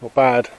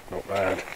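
First: Said in the usual way. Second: Murmured softly to himself; quiet. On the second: Real, not acted. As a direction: repeat it under your breath.

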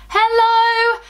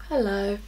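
First: High, drawn-out delighted hello; excited hello. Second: Low-pitched, softer admiring hello; understated, savouring hello. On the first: Vlogger greeting her new highlight, high excited hello. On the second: Vlogger greeting her new highlight, low and admiring. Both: Real, not acted.

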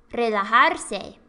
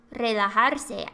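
No difference in how they are said.

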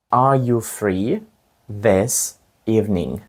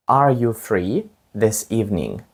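First: "Are you free this evening" slowly, in two parts; slow, split in two. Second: Said in the usual way. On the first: Shown as a demonstration. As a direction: break the question in two and go slowly. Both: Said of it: "чи вільний ти цим вечором?".

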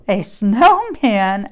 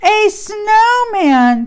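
First: A slow, lightly confused asking; puzzled question. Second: High, loud, drawn-out delighted cry; excited. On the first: Pig hearing Cow call the tree a snowman, puzzled question. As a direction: echo it back unsure. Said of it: "asked Pig". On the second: Cow seeing the tree for the first time, excited cry. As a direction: burst out with delight. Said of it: "said Cow excitedly". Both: Acted.

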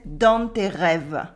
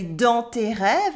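First: Slow southern French "dans tes rêves", N sounded in dans; southern French "dans tes rêves", ending rêv-uh; southern French accent. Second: "dans tes rêves" with nasal dans and silent final E; speaker's standard French. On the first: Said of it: "pronouncing the N in nasal vowels". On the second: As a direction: say "dans" without an N, end "rêves" on v. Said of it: "as I would say". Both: Shown as a demonstration.

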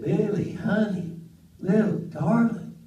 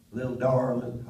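First: Lightly voiced sweet aunt, higher. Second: Said in the usual way. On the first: Aunt sweet-talking her nephew, higher, lightly voiced. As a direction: coo it like a doting old aunt. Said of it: "she is so sweet". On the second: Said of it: "She called everybody honey".

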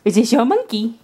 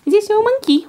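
First: Said in the usual way. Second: High, sing-song question to the dog; baby talk. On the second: Shown as a demonstration. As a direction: coo it up high at the puppy. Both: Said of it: "repeated in pet voice".

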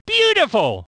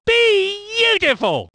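First: Said in the usual way. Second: High, drawn-out exclamation; slow, thrilled commentator cry; rapturous praise. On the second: Acted. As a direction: stretch the first syllable in delight. Commentator praise, stretched take.

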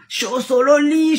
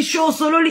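First: Said in the usual way. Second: Angry shout. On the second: Real, not acted. Ranting, repeats phrase louder.

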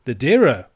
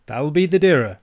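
First: Loud, startled question; startled Scots outcry; cried out. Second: Said in the usual way. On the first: A narrator's reading. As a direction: echo it as the alarmed old uncle. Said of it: "cries Ebenezer".

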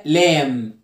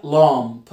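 First: لام with a front "a" as in cat, ending on m; لام, open front vowel and hummed m; silent-b lamb vowel. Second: لامب with a darker "ah" and released p; لامب, back vowel closing on a popped p; lamp with final p. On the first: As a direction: say لام as "laem", no b. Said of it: "خد بالك الاي دي بقول عليها لام". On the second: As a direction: say لامب as "lahmp", p audible. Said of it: "لكن دي بقول عليها لامب". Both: Shown as a demonstration.

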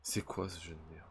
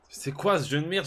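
First: Said in the usual way. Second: Cri aigu et fort d'exaspération; éclate contre le jeu, plus haut; angry. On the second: Real, not acted. Même phrase redite, criée ensuite. (crié d'exaspération)

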